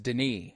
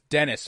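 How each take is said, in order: First: The name is said the French way. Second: The name is said the English way. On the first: The speaker calls it right. "it's Denis. ... is the French version" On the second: The speaker calls it wrong. "I used to think it was Dennis"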